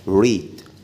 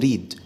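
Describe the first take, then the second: First: The r is said with slightly rounded lips. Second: The r is a tapped, Arabic-style r. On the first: The speaker calls it right. "لازم تقولها ريد" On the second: The speaker calls it wrong. "ما تقولش عليها طبعا ريد"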